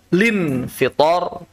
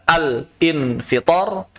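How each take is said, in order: First: It begins directly with lin, dropping al. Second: It begins al, then a separate in. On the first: The speaker calls it right. "lin fitor juga boleh" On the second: The speaker calls it wrong. "Al infitor itu nggak boleh. Karena bukan hamzah qata'"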